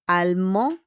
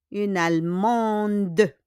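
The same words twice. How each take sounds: First: Allemand as "al-MON", no d at the end; silent final D. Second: Allemande slowly, "al-MON-duh"; sounded feminine ending. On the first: Teacher gives masculine form, Allemand with silent d. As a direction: leave Allemand open on the nasal vowel. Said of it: "It ends with D". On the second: Teacher shows added E, Allemande with sounded d. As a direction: draw out Allemande to a clear final "duh". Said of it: "we just add E". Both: Shown as a demonstration.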